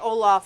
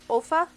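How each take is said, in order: First: A vowel falls between the L and F. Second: The L runs straight into the F. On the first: The speaker calls it wrong. "I say Olaf, and it's not really Olaf" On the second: The speaker calls it right. "but O O L F A, Olfa, I guess"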